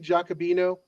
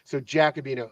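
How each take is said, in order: First: The first syllable sounds like 'jock'. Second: The first syllable sounds like 'jack'. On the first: The speaker calls it wrong. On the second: The speaker calls it right.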